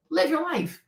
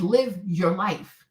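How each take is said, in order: First: Said in the usual way. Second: Live, your, life, each word drawn out very slowly; slow quoted advice. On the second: Shown as a demonstration. Repeating her own advice to a cheated wife, slowly and deliberately. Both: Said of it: "I said".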